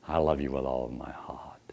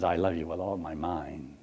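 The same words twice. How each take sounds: First: Low, soft whispered endearment; romantic whisper. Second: Low, soft mock endearment. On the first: A man to a woman, a low romantic whisper. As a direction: whisper it like a lover. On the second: A man to a woman, low and mock-tender. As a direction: say it tenderly yet absurdly. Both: Shown as a demonstration.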